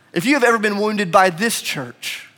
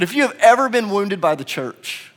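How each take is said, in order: First: Raised pitch, then weight on "this" before "church"; preacher's pointed emphasis on "this"; stress on THIS. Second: Raised pitch, falling onto "church"; preacher's measured line ending firmly on "church"; stress on CHURCH. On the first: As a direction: set "this" apart, pointing at this very church. Repeats, swapping in this church. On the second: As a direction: build evenly and land on "church". Rhetorical repetition, general case first. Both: Real, not acted.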